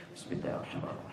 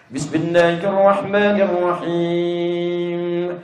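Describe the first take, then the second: First: Barely audible whispered bismillah; imam reciting silently. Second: Very slow, long-held chanted bismillah; imam reciting aloud. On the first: Over-zealous imam tries every practice, now whispered. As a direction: whisper it quickly under the breath. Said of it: "pernah disirkan". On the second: Over-zealous imam leads maghrib prayer, chanted aloud. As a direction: chant it out, stretching the last syllable. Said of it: "Jadi imam dia". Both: Acted.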